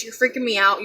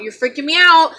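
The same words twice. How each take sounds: First: Said in the usual way. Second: Raised, louder retold protest; retold scream. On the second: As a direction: lift pitch and volume in mock panic. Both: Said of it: "Like, I screamed at her".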